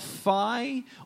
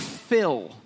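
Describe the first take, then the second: First: The vowel sounds like the word eye. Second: The vowel sounds like the i in ill. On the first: "like I, eyeball" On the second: "or fill, the name"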